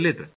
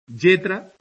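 First: The first consonant is a plain l sound. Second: The first consonant is a palatal y-like sound. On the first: This is the standard pronunciation. "en vez de letra" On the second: This is the Aragonese regional pronunciation. "palatalización de la L inicial"

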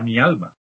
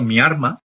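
First: The consonant before the m is an l. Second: The consonant before the m is an r. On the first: "se refiere a" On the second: "la confusión de la L y la R implosiva"

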